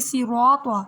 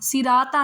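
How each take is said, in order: First: The r is said full and heavy. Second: The r is said thin and light. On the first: The speaker calls it right. "बल्कि सिरात्वा मोटा पढ़ेंगे" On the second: The speaker calls it wrong. "सिराता नहीं"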